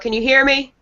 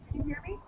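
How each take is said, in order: First: The voice is louder and easier to hear. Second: The voice is quiet and hard to hear. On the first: The speaker calls it right. "I'm speaking louder now" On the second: The speaker calls it wrong. "it's really soft"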